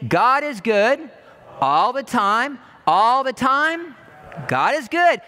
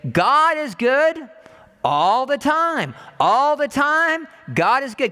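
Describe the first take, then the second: First: Slow, loud, said together; slow loud preacher's response; congregation response. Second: Slow, loud preaching chant; slow loud preacher's call; call and response. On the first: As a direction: lead the room in saying it. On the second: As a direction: proclaim it slowly to the congregation. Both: Acted. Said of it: "Can you say it with me?".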